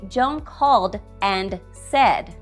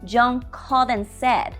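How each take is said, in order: First: The D at the end of 'and' is pronounced. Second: The D at the end of 'and' is dropped. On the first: The speaker calls it wrong. "I did not say" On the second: The speaker calls it right. "but I said"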